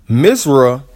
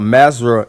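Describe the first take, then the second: First: The first vowel is an 'i' sound. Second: The first vowel is an 'a' sound. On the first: This is the classical and official form. "Arabic pronunciation, is the classical Quranic Arabic and modern official name of Egypt" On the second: This is the local everyday form. "Egyptian Arabic pronunciation, is the local pronunciation"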